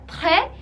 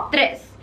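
First: "très" with silent s; French "très", ending open on the vowel; French pronunciation. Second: "tres" with sounded final s; Spanish number "tres", s audible; Spanish pronunciation. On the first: Teacher shows the French word, final s silent. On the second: Teacher names the number three, Spanish pronunciation. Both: Shown as a demonstration. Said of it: "no se pronuncia la S".

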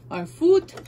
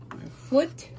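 First: "Our foot" higher and louder, half called out; louder "Our foot" after muttering it; louder repeat. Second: High whispered "our foot" under the breath; whispered "our foot" while fiddling with the machine; muttered. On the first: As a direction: say "Our foot" again, out loud this time. Repeats instruction, second louder. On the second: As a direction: breathe "our foot" to yourself, barely voiced. Repeats instruction, first muttered. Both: Real, not acted.

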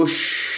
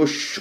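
First: "يش" with rounded yu, then unrounded sh; clean damma, spread sheen. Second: "يش" with lips pushed forward through sh; wrongly rounded sheen. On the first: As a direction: release the lips before the sh of "يش". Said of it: "لكن لا أسحبها إلى الشين". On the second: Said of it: "وتضم الشفاه إلى الأمام". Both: Shown as a demonstration.

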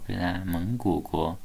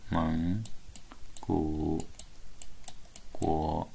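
First: Said in the usual way. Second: 蒙 古 国 drawn out, one slow syllable at a time, softer. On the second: Shown as a demonstration. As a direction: spell out 蒙 古 国 slowly for the student.

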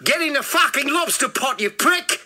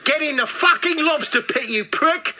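First: High, forceful yell in an attempted South African accent; angry South African rapper, accent roughly done; second go at South African accent. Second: Loud, high attempt at South African that slips towards Australian; angry South African accent gone Australian; botched South African accent. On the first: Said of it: "Something like that". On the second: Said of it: "That's Australian, isn't it?".

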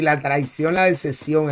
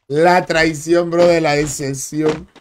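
First: Said in the usual way. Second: Slow, drawn-out mock tragedy; milk the betrayal theatrically; hammed-up lament, slowed right down; mock dramatic, slow. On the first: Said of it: "repeated slower for drama". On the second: Shown as a demonstration. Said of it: "repeated slowly, dramatized".

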